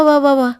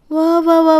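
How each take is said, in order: First: Said in the usual way. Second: Sarcastic applause. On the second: Acted. Sarcastic retort in quarrel.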